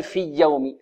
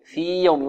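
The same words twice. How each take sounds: First: في يوم fused as "fiyy-yawm"; wrongly merged ya. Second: في يوم with long ī, then a clear y; separated ya. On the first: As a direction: double the y and lose the long ī in في يوم. (في يوم بإدغام الياء) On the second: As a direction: keep في and يوم distinct. (في يوم بإظهار الياء) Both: Shown as a demonstration. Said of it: "لا تقل في يوم".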